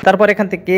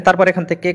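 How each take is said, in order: Both takes have the same delivery.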